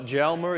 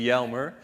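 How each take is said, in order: First: The name begins with an English J sound. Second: The name begins with a Y sound. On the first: The speaker calls it wrong. "it's not Jelmer" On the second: The speaker calls it right. "you pronounce the J as a Y"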